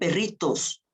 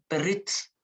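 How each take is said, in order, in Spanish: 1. La vocal o de la terminación se pronuncia completa. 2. La vocal o de la terminación se pierde. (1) "No dicen perritos" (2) "sino perrits"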